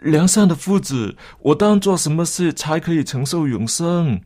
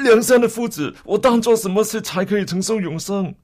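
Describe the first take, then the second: First: It is asked in a puzzled, doubtful tone. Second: It is asked in a pressing, urgent tone.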